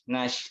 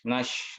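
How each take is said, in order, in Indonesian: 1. Bunyi sh diucapkan tanpa bibir membulat. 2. Bunyi sh diucapkan dengan bibir membulat. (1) "huruf shin itu adalah huruf lidah ya" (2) "huruf shin tapi bibirnya ikut campur ya. Misalkan jadi ikut monyong ya"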